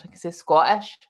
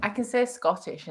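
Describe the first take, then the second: First: The word Scottish said the Scottish way, as skwotish; saying Scottish in a Scottish accent, a little louder. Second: Said in the usual way. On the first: Shown as a demonstration. Asked for an example, she says Scottish in a Scottish accent. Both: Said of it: "I can say Scottish in Scottish".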